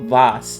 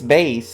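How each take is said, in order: First: The word does not rhyme with face. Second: The word rhymes with face. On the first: "I've been hearing it called vase instead of base" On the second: "It's like face, so it is base"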